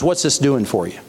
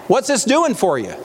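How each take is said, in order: First: Said in the usual way. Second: "doing" punched high; emphatic repeat. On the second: Real, not acted. Preacher pressing his question on listeners, stressing "doing". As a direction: hit "doing" with a high pitch that falls away.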